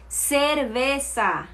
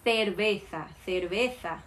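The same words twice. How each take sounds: First: Cerveza with S sounds, very slowly; Colombian Spanish C. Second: Cerveza with a lisped TH sound; Spain Spanish C. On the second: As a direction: say cerveza as therbetha, tongue on teeth. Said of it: "Seria algo como". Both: Shown as a demonstration.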